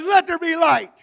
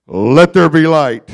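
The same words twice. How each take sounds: First: Higher-pitched preacher's take on God; raised-pitch call of creation; God proclaiming. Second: Deep, booming voice of God; loud, low, commanding Creator. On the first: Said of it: "He says". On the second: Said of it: "That's my God voice". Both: Acted.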